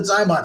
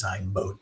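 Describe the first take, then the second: First: Zymot with a short O, "zy-mott"; habitual pronunciation. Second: Zymote with a long O, "zy-moat"; correct pronunciation. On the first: Doctor defending their usual name for the device, habitual pronunciation. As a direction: say Zymot to rhyme with "hot". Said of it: "I've just always called it Zymot". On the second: Doctor conceding the likely proper device name, correct pronunciation. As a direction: say Zymote to rhyme with "boat". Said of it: "I really do think it's Zymote". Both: Shown as a demonstration.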